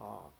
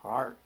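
First: It is said in a New Hampshire accent. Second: It is said in the local accent. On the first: This is how the visitor says it. The speaker calls it wrong. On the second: This is how people here say it. The speaker calls it right.

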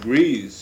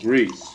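First: It is pronounced the way the verb is. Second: It is pronounced the way the noun is. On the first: The word names an action. "when you used the verb form, you said grease" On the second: The word names a substance. "for the noun form, you used without any hesitation grease"

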